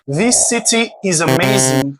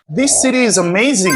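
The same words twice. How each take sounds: First: The T in city is a crisp T. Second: The T in city is a soft flap. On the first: The speaker calls it wrong. "au lieu de dire" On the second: The speaker calls it right. "Vous allez dire"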